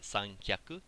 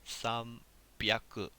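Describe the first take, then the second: First: The middle consonant is not a B sound. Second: The middle consonant is a B sound. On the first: The speaker calls it wrong. "janai desu" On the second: The speaker calls it right. "We get a B sound here"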